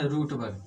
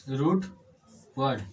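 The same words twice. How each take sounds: First: Said in the usual way. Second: रूट and वर्ड split by a clear pause; word by word. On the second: Shown as a demonstration. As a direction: separate the two words for the learners. Repeats term word by word.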